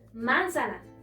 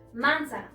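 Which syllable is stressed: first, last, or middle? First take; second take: first; first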